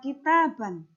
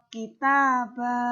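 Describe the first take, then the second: First: The word ends with a short vowel and n. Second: The word ends with a lengthened vowel, no n. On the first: The speaker calls it wrong. "tidak dibaca kitaban" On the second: The speaker calls it right. "dipanjangkan dua harokat"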